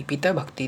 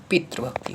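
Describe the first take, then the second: First: पिता भक्ति as pitaa-bhakti; long aa at the end of पिता; wrong form. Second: पितृभक्ति with tri in the middle; corrected form. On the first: Teacher shows the error, पिता भक्ति with long aa. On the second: Teacher corrects students, पितृभक्ति with tri sound. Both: Shown as a demonstration. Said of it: "नहीं".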